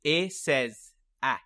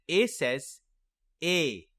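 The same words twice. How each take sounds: First: Slow "A says A", last "A" as in cat; spaced chant of "A says A", ending on brief short a; short vowel. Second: Slow "A says A", last "A" as its letter name; spaced-out "A says A", ending on long a as in bake; long vowel. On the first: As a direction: end "A says A" on the apple sound. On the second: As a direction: end "A says A" rhyming with say. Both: Shown as a demonstration. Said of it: "Let's try it together".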